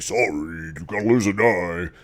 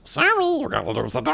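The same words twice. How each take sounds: First: It is said in a normal voice. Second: It is said in a squeaky chipmunk voice.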